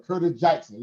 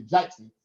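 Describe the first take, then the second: First: Southern accent. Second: the surname with a Southern vowel, like Jaykson; Southern accent. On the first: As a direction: say the name the Southern way. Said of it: "in my Southern voice". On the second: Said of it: "in the South, we say". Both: Shown as a demonstration.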